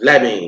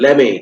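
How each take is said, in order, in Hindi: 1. दोनों शब्द एक साथ जुड़कर बोले जाते हैं। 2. दोनों शब्द एक साथ जुड़कर बोले जाते हैं।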